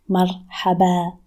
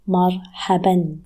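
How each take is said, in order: First: The word ends on a vowel with no final N. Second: The word ends with a final N sound. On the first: It is a more casual way of saying it. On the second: It is the full form with the double vowel.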